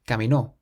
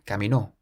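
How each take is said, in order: First: The stress is on the final syllable. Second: The same.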